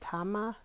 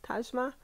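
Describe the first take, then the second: First: The middle consonant is a soft H-like sound. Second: The middle consonant is a J sound, as in Taj. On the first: "is the J like a Y, like an H" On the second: "like Taj Mahal"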